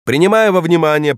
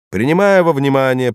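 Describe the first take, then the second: First: High, raised formal proclamation; stern judge. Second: Formal, raised judge voice; stern judge. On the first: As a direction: proclaim it from the bench. Judge repeats the formula. (торжественный голос судьи) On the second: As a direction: read out the verdict like a judge. Judge pronounces sentence. (строгий голос судьи) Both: Acted.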